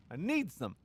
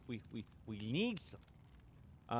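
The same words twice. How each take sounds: First: Said in the usual way. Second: Slow, soft, desperate "We, we, we need them"; needy. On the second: Pretend. Streamer begging viewers for watch hours, slow and soft. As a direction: drag out "need" like a craving.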